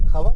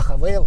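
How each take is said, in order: First: The second syllable has a plain 'a' vowel. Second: The second syllable has an 'ay' diphthong. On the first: The name is treated casually, like a nickname. "Хавал это как, знаете, как Сашка" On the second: The name is treated respectfully, like a full name. "Хавейл это уже как Александр"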